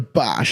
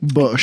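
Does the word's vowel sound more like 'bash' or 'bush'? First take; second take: bash; bush. First: The vowel is open, like in 'bash'. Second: The vowel is rounded, like in 'bush'. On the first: It is the slang exclamation. "I'm not saying it like the kebab guy" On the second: It refers to the German engineering brand. "I'm saying it like the German engineering"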